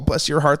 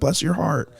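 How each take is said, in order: First: It sounds sarcastic and snide. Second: It sounds sincere and sympathetic.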